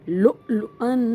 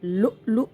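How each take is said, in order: First: The word ends with an an sound. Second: The word ends with a long a vowel. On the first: The reader continues without stopping. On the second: The reader stops at this word.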